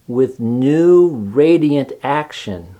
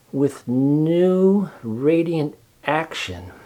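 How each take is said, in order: First: Slow, deliberate reading of the label; slow reading aloud. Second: Very slow, thoughtful repeat, a shade higher. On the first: A narrator's reading. Charlotte reading the soap ad slowly. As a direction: read each word out slowly. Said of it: "Charlotte read the words". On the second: Acted. Charlotte musing over the ad, very slow. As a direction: savour the words slowly, thinking. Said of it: "repeated Charlotte slowly".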